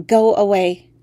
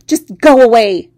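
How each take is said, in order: First: Said in the usual way. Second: "Just go away!" yelled much louder, "go" punched; shout. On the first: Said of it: "I managed to say". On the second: Acted. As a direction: scream it at the frog. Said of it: "I shouted".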